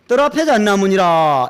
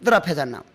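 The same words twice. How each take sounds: First: Zen master Joju. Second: Said in the usual way. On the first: Retold or imitated. Zen master answering a seeker, intoned pronouncement. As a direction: answer like an old master, stretching "잣나무니라". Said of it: "조주고불이라고 하는 부처님을 떡 찾아가서".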